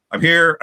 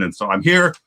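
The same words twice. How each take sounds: First: "I'm here" said higher and louder, here punched; emphatic. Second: Said in the usual way. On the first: Real, not acted. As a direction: announce "I'm here" with a bright, emphatic lift. Announcing arrival on stream.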